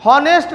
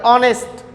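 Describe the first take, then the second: First: हॉनेस्ट said with a sounded h, as written; हॉनेस्ट voiced with an audible h; wrong pronunciation. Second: ऑनेस्ट said with a silent h, opening on the vowel; ऑनेस्ट with no h sound; correct pronunciation. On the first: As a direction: say हॉनेस्ट with a clear h at the start. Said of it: "लेकिन हॉनेस्ट नहीं पढ़ते". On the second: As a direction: say ऑनेस्ट starting straight on the vowel. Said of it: "इसको क्या पढ़ते हैं?". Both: Shown as a demonstration.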